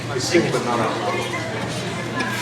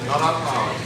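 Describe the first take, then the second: First: Drawn out, each word spaced; slow it right down, quietly; slow and deliberate. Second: Said in the usual way. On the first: Real, not acted. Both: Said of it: "I don't sing either".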